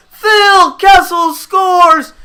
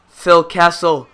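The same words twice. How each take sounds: First: High, loud, drawn-out name of the scorer; shouting the scorer. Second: Said in the usual way. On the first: Real, not acted. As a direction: stretch the name out like a commentator crowning the hero. Name shouted after goal.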